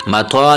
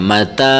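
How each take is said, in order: First: Teacher reads متوا with an o sound after ت, as the mistake; wrong vowel demo. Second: متا read with a plain open "ta", no o sound; correct short ta. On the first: Teacher warns students: wrong rounded vowel in متوا. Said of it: "متوا نہیں پڑھنا". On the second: Teacher shows students the correct open "ta" in متا. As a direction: say متا with a clean "ta". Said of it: "متا، یہ تا ہے". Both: Shown as a demonstration.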